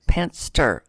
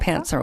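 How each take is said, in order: First: The word has a t sound before the s. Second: The word has no t sound before the s. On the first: The speaker calls it wrong. "I always say it wrong" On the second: The speaker calls it right. "without the T"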